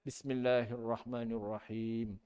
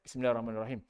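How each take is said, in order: First: It is recited slowly and carefully. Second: It is recited quickly and hurriedly. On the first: The speaker calls it right. "bacanya macam mana yang sempurna" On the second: The speaker calls it wrong. "Kita makmum nak baca cepat"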